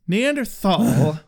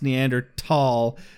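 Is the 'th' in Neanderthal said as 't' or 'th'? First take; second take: th; t. First: The middle sound is a 'th' as in thin. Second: The middle sound is a plain 't' sound. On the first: This is the Americanized pronunciation. "pronouncing it with our Americanized TH" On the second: This honors the word's Germanic origin. "Germanic in origins and is generally honored by being pronounced Neanderthal"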